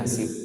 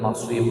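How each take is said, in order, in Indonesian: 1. Bunyi s itu biasa, seperti dalam bahasa Indonesia. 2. Bunyi s itu emfatis, seperti dalam bahasa Arab. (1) "ini yang kemudian diucapkan nasib" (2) "pakai shod ... kan susah"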